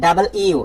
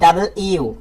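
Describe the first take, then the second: The two takes are said the same way.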